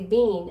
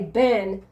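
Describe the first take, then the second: First: It is said like 'bean', Canadian style. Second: It is said like 'Ben', US style.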